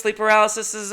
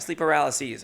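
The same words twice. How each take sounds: First: PARALYSES with a doubled ending, "puh-RAL-uh-sis-iz"; PARALYSES as "paralysises". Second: PARALYSES as "puh-RAL-uh-seez", self-correcting; PARALYSES ending in "-seez". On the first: Tries one plural, then corrects it. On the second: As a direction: end PARALYSES on a long "seez". Corrects own plural just said. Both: Real, not acted.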